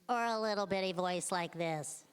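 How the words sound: It is said in a tiny, high voice.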